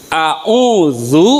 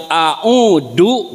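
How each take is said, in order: First: "A'udzu" dengan dz berdesis; pengucapan dz. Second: "a'udu" dengan d biasa tanpa desis; "a'udu" dengan dal; pengucapan d. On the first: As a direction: bedakan "A'udzu" dari a'udu. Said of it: "dengan a'udu beda artinya". ("dz" bergetar di ujung gigi) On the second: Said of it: "beda artinya". ("d" tegas tanpa getaran) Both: Shown as a demonstration.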